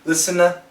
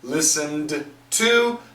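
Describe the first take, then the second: First: The T sound is dropped after the N. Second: The D and T sounds are both pronounced. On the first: "and cancel the T" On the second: "so we got a d, to, put it together"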